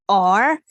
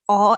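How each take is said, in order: First: The vowel ends with an R sound. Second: The vowel ends without an R sound. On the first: "like or in American English" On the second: "like aw in British English"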